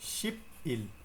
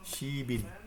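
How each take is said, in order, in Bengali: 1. অক্ষর দুটো আলাদা থাকে: sip il। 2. শেষের ব্যঞ্জনটি পরের দিকে যুক্ত হয়ে হয় si-bil। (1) "তাহলে কি হওয়ার কথা? শিপ ইল, তাই না?" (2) "ভাচ্চিম মূল বর্ণের কাছে চলে যাবে"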